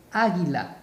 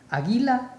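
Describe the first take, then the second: First: "águila" with the weight on the first syllable á; stress on A. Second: "Águila" mis-stressed on the middle syllable, a-GUÍ-la, pitched high; stress on GUI. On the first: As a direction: hit the opening vowel of "águila". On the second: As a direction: try "Águila" with the weight wrongly on gui. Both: Shown as a demonstration. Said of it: "Mayor fuerza de voz".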